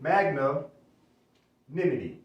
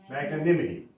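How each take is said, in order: First: The word is split into two parts with a break. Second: The word is said smoothly without any break.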